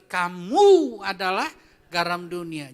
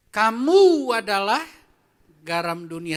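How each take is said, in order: First: "Kamu" slow and loud, "garam dunia" falling; stressed reading again. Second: KAMU drawn out slowly and loudly; stressed reading. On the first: Pastor rereading the verse for the church, stressing "Kamu". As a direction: stretch "Kamu adalah" slowly, then settle. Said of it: "Sekali lagi". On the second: Pastor reading the verse to the church, stressing "Kamu". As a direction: lean hard on "Kamu", slow and loud. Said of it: "Saya baca ya". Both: Shown as a demonstration.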